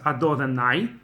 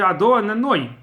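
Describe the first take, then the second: First: The last syllable has an 'ah' vowel, 'nai'. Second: The last syllable has an 'oh' vowel, 'noi'. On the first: It means 'my masters', not the divine name. The speaker calls it wrong. "you cannot pronounce Ado and Nai. That sounds like my masters" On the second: It refers to the divine name. The speaker calls it right. "It has to be Ado and then Noi"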